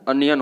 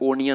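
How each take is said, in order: First: The word begins with an 'uh' sound. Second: The word begins with an 'oh' sound. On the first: The speaker calls it right. "अनियन होता है" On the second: The speaker calls it wrong. "ओनियन नहीं होता है"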